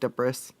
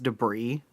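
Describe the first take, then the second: First: The final S sound is pronounced aloud. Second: The final S sound is left silent. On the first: The speaker calls it wrong. "that's not how you say it" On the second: The speaker calls it right. "I know it's debris"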